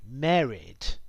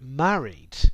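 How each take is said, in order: First: Said with a posh upper-class vowel. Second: Said with a modern RP vowel. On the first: "would sound like married in posh English" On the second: "I would say the words married and have in almost R P"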